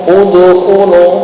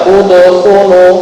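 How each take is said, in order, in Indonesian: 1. Huruf d dilepas dengan sedikit vokal mirip "u". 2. Huruf d dilepas dengan sedikit vokal mirip "u".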